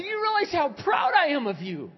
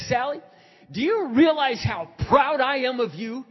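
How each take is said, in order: First: Louder, higher, fervent insistence; insistent repetition. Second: Loud, high, proud declaration; emphatic affirmation. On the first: Pastor repeating his pride to a disbelieving woman, insistent. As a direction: drive it home at full voice. Repeats it after she says What. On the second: Pastor telling Sally how proud he is, emphatic. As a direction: proclaim it forcefully down the phone. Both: Retold or imitated.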